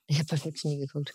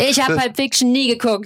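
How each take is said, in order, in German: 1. Er wird leise gesagt, weg vom Mikrofon. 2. Er wird laut gesagt, direkt ins Mikrofon. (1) "Das wolltest du gerade hier am Mikro vorbei sagen" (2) "Das kannst du ruhig laut sagen"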